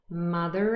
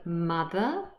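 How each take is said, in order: First: The word ends with an r linking onward. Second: The word ends in a schwa without r. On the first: "we do pronounce the r" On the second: "Mother just ends in a schwa"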